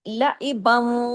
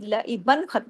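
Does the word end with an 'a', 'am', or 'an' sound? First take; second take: am; an. First: The word ends with an 'am' sound. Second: The word ends with an 'an' sound. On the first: The speaker calls it right. "अब लईबम वाव के साथ उसकी इदगाम हो जाएगा" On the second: The speaker calls it wrong. "दो जबर की लईबन नहीं पढ़ा जाएगा"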